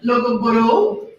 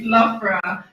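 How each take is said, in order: First: The name is said with four syllables, sounding the g. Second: The name is said with two syllables, like laugh-bra. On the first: The speaker calls it wrong. "we hear names like Logoboro. No" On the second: The speaker calls it right. "So it's Lafra. So an easy way to remember is laugh"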